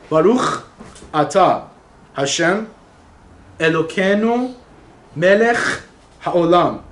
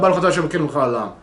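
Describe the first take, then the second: First: Each word is said slowly and clearly apart. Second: The words are rushed together and partly swallowed. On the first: The speaker calls it right. "slowly and pronounce the words correctly" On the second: The speaker calls it wrong. "you eat half the words"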